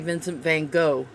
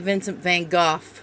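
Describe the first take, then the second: First: It is said in the American way. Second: It is said in the British way. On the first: This is how it is said in America. "And here we say" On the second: This is how it is said in England. "I think England, you say"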